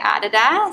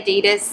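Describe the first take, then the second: First: It is said the Australian way. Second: It is said a non-Australian way. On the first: "In Australia, I think we say Adidas" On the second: "but if you say Adidas"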